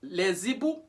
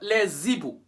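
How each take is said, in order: First: A linking z sound joins the article to the noun. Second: A linking z sound joins the article to the noun.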